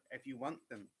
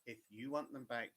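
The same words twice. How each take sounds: First: Said in the usual way. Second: "want" leaned on, falling tune; weight on "want", then let it drop; stress on want. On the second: Shown as a demonstration. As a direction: press the word "want" hard. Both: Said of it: "and the emphasis on the word".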